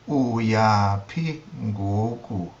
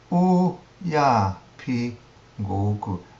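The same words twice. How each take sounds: First: The first syllable has a low tone. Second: The first syllable has a high tone. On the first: "Notice the low tone on the u" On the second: "A higher tone on the u"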